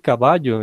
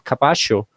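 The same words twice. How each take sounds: First: It is said with a Colombian accent. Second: It is said with an Argentine accent.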